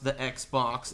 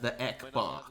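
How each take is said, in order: First: It is said in a plain English accent. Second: It is said in a Vietnamese accent.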